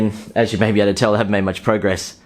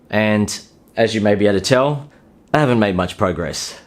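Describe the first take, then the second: First: It is spoken quickly with no pauses. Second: It is spoken slowly with deliberate pauses. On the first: The speaker calls it wrong. "or in a rushed way" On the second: The speaker calls it right. "You don't need to pause all the time when talking to a woman"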